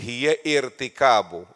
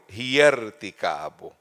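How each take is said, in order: First: A glottal stop is pronounced before irtikabu. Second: The glottal stop is dropped and the words join. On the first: The speaker calls it wrong. "you can't say like this" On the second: The speaker calls it right. "you have to eliminate this"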